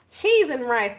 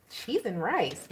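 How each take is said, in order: First: Exasperated exclaim. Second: Said in the usual way. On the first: Real, not acted. Exasperated reaction to card.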